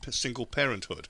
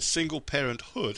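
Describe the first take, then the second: First: The stress falls on the first syllable 'par'. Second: The stress falls on the final syllable 'hood'. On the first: "instead of single parenthood" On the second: "You said single parenthood"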